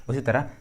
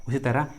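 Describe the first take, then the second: No difference in how they are said.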